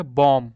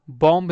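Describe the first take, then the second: First: बॉम्ब said as "bom", ending on m; silent b. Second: बॉम्ब with an audible b after the m; b wrongly sounded. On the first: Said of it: "तो इसको क्या पढ़ेंगे". (बॉम्ब को "बॉम" बोलना, ब मौन) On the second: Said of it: "बॉम्ब नहीं होता है". (बॉम्ब के अंत में ब बोलकर) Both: Shown as a demonstration.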